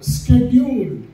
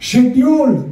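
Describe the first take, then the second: First: The word begins with an sk sound. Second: The word begins with an sh sound. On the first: The speaker calls it right. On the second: The speaker calls it wrong.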